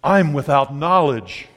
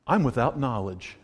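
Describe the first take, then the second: First: Slow mock pompous declaration. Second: Mock pompous declaration. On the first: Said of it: "it really comes off when you say". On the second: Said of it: "My response is". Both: Shown as a demonstration.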